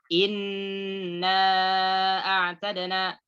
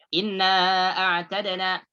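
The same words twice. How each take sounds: First: The doubled n is held long. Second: The doubled n is cut short. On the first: The speaker calls it right. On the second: The speaker calls it wrong.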